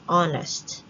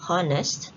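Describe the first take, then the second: First: The h at the start is silent. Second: The h at the start is pronounced. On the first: The speaker calls it right. "but it is a silent H or a soft H sound" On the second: The speaker calls it wrong. "So we don't say honest"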